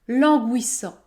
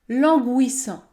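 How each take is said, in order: The two takes are said the same way.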